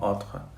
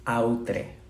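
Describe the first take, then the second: First: The word is said with French pronunciation. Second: The word is read with Spanish pronunciation. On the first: "se pronuncia mmm, más o menos como" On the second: "voy a pronunciarlo en castellano"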